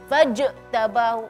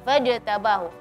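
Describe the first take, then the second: First: The middle j is bounced with strong emphasis. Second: The middle j is said plainly without emphasis. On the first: The speaker calls it wrong. "tidak perlu kita memberi penegasan atau suara ditinggiin" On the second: The speaker calls it right. "Dia fajtabahu"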